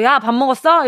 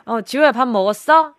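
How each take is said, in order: First: Brusque sibling call. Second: Gentler, easygoing check-in by name; friendly name call. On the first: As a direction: demo of a curt "야" greeting. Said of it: "이렇게가 아니라". (동생을 툭 부르는 말투 시범) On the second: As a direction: demo of kindly asking a sibling. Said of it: "이렇게 물어보던지". (동생 이름을 다정하게 부르는 시범) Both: Shown as a demonstration.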